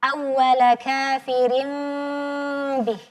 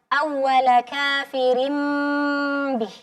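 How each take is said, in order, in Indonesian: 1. Bibir sedikit terbuka pada m. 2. Bibir tertutup rapat pada m. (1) "furjah ini mengasih sedikit celah" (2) "Atau yang pertama"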